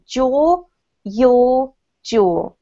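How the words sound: All three words share one vowel, British style. "if you speak the vowels in a British way, these have exactly the same vowel sound"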